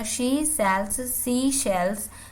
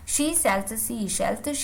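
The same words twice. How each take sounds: First: The phrase is read slowly and carefully. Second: The phrase is read quickly. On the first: "जैसे पहले आप ऐसे पढ़िएगा" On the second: "अब आप इसको थोड़ा जल्दी पढ़ने की कोशिश करिएगा"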